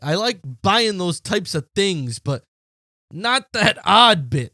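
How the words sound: It is read in a put-on accent.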